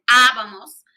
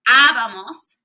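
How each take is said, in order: First: Abamos with the first a hit harder; stress on the accent. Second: Said in the usual way. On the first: Shown as a demonstration. Teacher showing students the accent in abamos, stressed. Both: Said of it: "Check out that accent".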